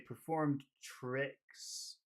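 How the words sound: The word tricks is big and long. The speaker calls it right. "make it big"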